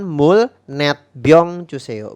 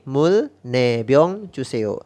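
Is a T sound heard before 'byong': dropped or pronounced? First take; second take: pronounced; dropped. First: The number is said with a final T sound. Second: The number is said without a final T sound. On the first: The speaker calls it wrong. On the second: The speaker calls it right. "Jadi T yang di belakangnya tidak dibaca"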